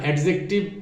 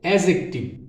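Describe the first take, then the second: First: A separate d sound comes before the j. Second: No separate d sound comes before the j. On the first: The speaker calls it wrong. "এটার উচ্চারণটা সম্পূর্ণ ভুল" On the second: The speaker calls it right. "আসলে এটার উচ্চারণ হবে অ্যাজেক্টিভ"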